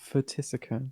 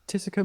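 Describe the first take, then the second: First: The word begins with an F-like sound. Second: The word begins with a plain T sound. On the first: The speaker calls it wrong. "How do you pronounce P H T? Is it Phtisica?" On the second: The speaker calls it right. "Oh, silent. Okay"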